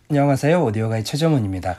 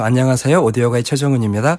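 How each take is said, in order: First: The voice sounds off-axis with more room reflection. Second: The voice sounds close, clear and direct. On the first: The listener can sense the space the speaker is in. "두 번째는 마이크에서 빗나가서 말씀하셨어요" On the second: The speaker seems to be right beside the listener. "처음에는 마이크 앞에서 말씀하셨고"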